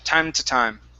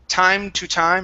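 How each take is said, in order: First: The word 'to' is reduced to a short t. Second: The word 'to' has a full oo vowel. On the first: The speaker calls it right. "the word to is often pronounced t" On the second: The speaker calls it wrong. "instead of saying to and really pronouncing that oo"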